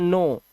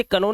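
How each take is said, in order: First: नो with silent k; correct pronunciation. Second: कनो with the k sounded; wrong pronunciation. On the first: Teacher showing k before n, नो without k. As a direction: start नो straight on the n. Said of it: "तो इसे पढ़ते हैं". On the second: Teacher warning against misreading, कनो with k. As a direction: say कनो with ka before the no. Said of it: "इसे कनो नहीं पढ़ना है". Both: Shown as a demonstration.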